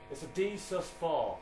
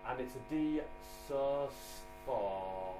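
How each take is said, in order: First: It sounds confident and certain. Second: It sounds unsure and hesitant.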